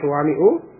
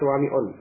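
First: The word ends with a plain 'u' vowel. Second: The word ends with an added 'n' sound. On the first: The speaker calls it right. "jadi suwami'u tidak ditanwin" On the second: The speaker calls it wrong. "tidak suwami'un"

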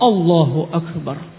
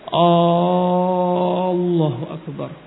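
First: The vowels are kept short and direct. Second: The vowels are drawn out long. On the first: The speaker calls it right. "Langsung Allahu Akbar" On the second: The speaker calls it wrong. "dia memanjangkan"

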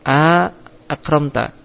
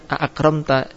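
First: A long vowel separates the two glottal stops. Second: The two glottal stops follow each other directly. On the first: "datang alif di antara dua hamzah, yaitu jadi mad, dibacanya mad" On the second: "bahasa pertama tetap"

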